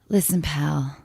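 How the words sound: It is said in a lusty, seductive tone.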